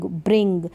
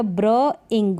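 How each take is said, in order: First: Said in the usual way. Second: "ब्र इंग" in two chunks, bruh then ing; sounded-out blending. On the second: Shown as a demonstration. Teacher reading for beginners, "ब्र इंग" sounded out in two parts. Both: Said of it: "मैं read कर देती हूँ".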